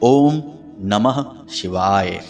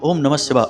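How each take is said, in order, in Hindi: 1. मंत्र धीरे-धीरे और शांति से बोला जाता है। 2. मंत्र जल्दी-जल्दी और हड़बड़ी में बोला जाता है। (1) "इस तरह से धीरे धीरे जाप करें" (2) "मंत्र उच्चारण में भी इतनी जल्दबाजी करते हैं"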